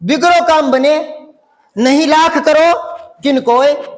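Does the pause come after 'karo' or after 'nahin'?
karo. There is a pause after 'karo'. The phrase no longer makes sense. The speaker calls it wrong. "सही भाव नहीं निकला ना"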